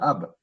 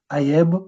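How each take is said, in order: First: The vowel runs straight into the b. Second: An extra e vowel is inserted before the b. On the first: The speaker calls it right. "On va dire ab" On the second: The speaker calls it wrong. "On ne dit pas, par exemple, aïeb"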